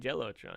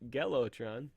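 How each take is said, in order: First: The name starts with a J sound. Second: The name starts with a hard G sound. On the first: "If it was with a J, obviously I'd say Jellotron" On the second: "it's spelled with a G. So I'm gonna be pronouncing it Gelotron"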